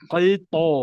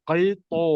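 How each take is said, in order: No difference in how they are said.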